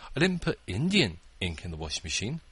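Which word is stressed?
Indian. The word "Indian" is stressed. It was a different kind of ink. "It was permanent ink"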